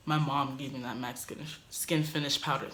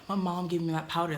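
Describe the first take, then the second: First: Stumbling over "mac Skin, Skin Finish powder", repeating "Skin"; tongue-tied. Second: Said in the usual way. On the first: Real, not acted. Quoting herself to roommate, stumbling on the product name. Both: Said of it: "Dang, I can't say it".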